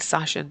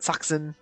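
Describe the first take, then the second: First: The middle consonant sound is sh. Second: The middle consonant sound is ks. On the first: The speaker calls it wrong. "I know I've been pronouncing it wrong the whole time" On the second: The speaker calls it right. "they say his name like Saxon"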